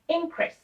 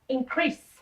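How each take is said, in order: First: The stress is on the first syllable. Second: The stress is on the last syllable. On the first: It is used as a noun. "the stress would go in the first syllable" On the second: It is used as a verb. "the stress would go in the last syllable"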